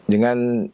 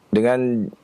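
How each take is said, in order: No difference in how they are said.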